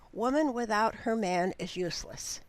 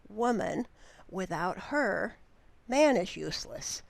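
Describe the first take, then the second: First: It runs on with no pauses between words. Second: It pauses after 'woman' and after 'her'. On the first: A woman is useless without her man. "we might string the words together" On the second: A man is useless without a woman. "with some punctuation which would change the meaning"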